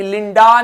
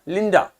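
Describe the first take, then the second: First: लिंडा with a long, full "aa" at the end; लिंडा ending on a strong open aa; over-full final vowel. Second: लिंडा with a short, weak "uh" at the end; लिंडा ending on a quick schwa; light final vowel. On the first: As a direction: draw out the last vowel of लिंडा, "lin-DAA". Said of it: "ए को उतना ए नहीं". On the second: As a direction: let the last vowel of लिंडा drop away lightly. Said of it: "तो हल्का pronounce किया". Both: Shown as a demonstration.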